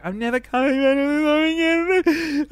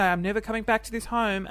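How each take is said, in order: First: High, loud, sob-broken wail; mock ugly-cry wail; bawling quote. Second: Said in the usual way. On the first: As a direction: voice cracking into an ugly cry as the words come out. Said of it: "and then I just bawled". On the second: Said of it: "I started to say".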